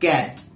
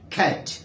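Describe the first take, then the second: First: The first consonant has no strong puff of air. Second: The first consonant has a strong puff of air. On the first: "উচ্চারণ হচ্ছে ক্যাট" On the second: "UK তো বলে থাকে খ্যাট, একটা বাতাসের মতো থাকতে হবে"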